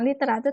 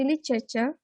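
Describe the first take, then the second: First: The R sound is heavy and clearly pronounced. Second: The R sound is soft, English-style. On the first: The speaker calls it wrong. "bukan literatur" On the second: The speaker calls it right. "tapi literature"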